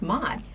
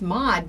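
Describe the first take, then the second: First: The vowel sounds like the one in 'mod'. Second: The vowel sounds like the one in 'awed'. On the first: The speaker calls it wrong. "they might also think Maud, pretty hip, cool, M O D" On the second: The speaker calls it right. "It's Maud"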